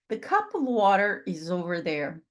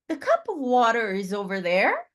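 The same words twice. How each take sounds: First: The pitch falls at the end. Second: The pitch rises at the end. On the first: It is a statement. "Uma afirmação, a entonação desce" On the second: It is a question. "se eu ler essa frase como se no final da frase eu uh, subir, vai ser uma pergunta"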